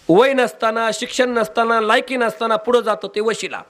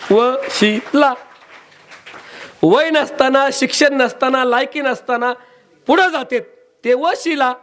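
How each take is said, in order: First: Said in the usual way. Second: Each नसताना raised high, वशिला drawn out; emphatic repeat. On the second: Shown as a demonstration. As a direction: hammer the definition home, word by word. ("नसताना" वर जोर देत, उंच आवाजात) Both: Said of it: "वशिला म्हणजे काय?".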